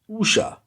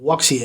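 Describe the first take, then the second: First: It sounds like 'oo-shah', two short syllables. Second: It sounds like 'wook-see-ah', three syllables. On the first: The speaker calls it right. "which is actually pronounced Usha" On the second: The speaker calls it wrong. "So I won't pronounce it Wuxia anymore"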